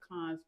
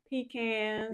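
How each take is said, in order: First: It is said with a non-Southern pronunciation. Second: It is said with a Southern US pronunciation.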